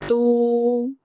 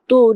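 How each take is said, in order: First: The vowel is drawn out long. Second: The vowel is cut short. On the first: The speaker calls it right. "इतनी आवाज़ हम खींचेंगे" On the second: The speaker calls it wrong. "तू नहीं कहेंगे"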